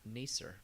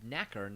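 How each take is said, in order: First: The middle consonant is an s sound. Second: The middle consonant is a k sound. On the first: The speaker calls it wrong. "not nacer" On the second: The speaker calls it right. "it's called knacker"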